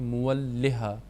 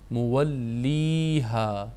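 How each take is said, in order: First: The vowel before the final 'ha' is short. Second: The vowel before the final 'ha' is long. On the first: The speaker calls it wrong. "कई इसको गलत पढ़ते हैं, वो दुरुस्त नहीं है" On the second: The speaker calls it right. "उस या को हम लंबा करके पढ़ते हैं"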